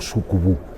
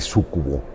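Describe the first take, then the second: First: The last vowel is a u sound. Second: The last vowel is an o sound. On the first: "digo sucubu" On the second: "en lugar de decir sucubo"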